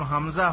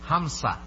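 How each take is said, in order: First: The middle consonant is a z sound. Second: The middle consonant is an s sound. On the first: "যদি কারো নাম হামজা হয়" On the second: "ওরা হামজাকে কি বলে জানেন?"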